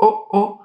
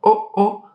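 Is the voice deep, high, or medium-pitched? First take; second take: high; high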